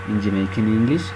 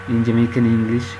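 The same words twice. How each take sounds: The two takes are said the same way.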